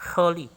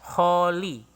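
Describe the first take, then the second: First: The o vowel is clipped very short. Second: The o vowel is held at normal length. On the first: The speaker calls it right. "lebih lebih pendek bunyi o-nya itu" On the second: The speaker calls it wrong. "kalau normalnya kita kan baca holy"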